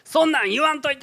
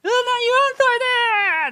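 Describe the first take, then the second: First: It sounds clearly angry. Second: It sounds explosive and tearful.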